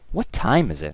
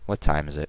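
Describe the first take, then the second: First: The word 'time' is clearly stressed. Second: It is said flat with no stress.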